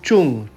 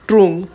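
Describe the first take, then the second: First: The word begins with a 'ch' sound. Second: The word begins with a 'tr' sound. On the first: It is how locals actually say it. "लेकिन प्रोनाउंस किया जाता है चुंग" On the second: It follows the written spelling. "लिखा जाता है टी आर यू N G"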